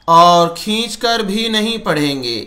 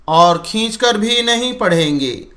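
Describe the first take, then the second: The two takes are said the same way.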